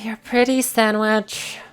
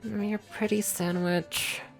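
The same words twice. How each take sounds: First: It is grumbled more loudly. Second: It is grumbled quietly through clenched teeth.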